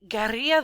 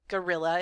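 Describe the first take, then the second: First: The word is said with Spanish-style sounds. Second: The word is said with English-style sounds. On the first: "I'm going to say it as guerrilla violence because I like it" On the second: "if you want to say it like that"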